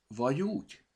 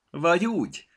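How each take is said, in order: First: Vagy úgy with a rising question tune on úgy; "Vagy úgy?" said as a curious question; questioning remark. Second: Vagy úgy with a falling close, stress on vagy; "Vagy úgy" said as an answer, dropping at the end; knowing remark. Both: A narrator's reading.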